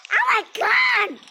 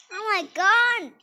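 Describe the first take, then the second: First: Put-on high pleading little-kid whine; high, louder childish whine; whiny little kid. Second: Said in the usual way. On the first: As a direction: beg like a tiny child.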